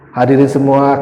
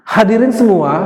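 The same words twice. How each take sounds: First: The pitch stays flat and monotone. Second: The pitch moves up and down expressively. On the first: The speaker calls it wrong. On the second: The speaker calls it right. "Tapi coba atur"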